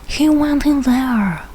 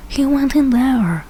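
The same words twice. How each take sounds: The two takes are said the same way.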